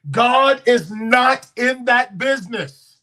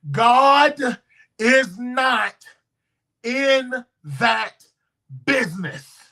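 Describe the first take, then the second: First: Slow, loud declaration; emphatic preaching. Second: God, is not, in that, business: each pushed out apart, God high and loud; word-by-word emphasis. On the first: Preacher to congregation, slow loud declaration. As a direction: lean into God is not in that business. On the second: Preacher pounding the point to the church, word by word. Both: Acted.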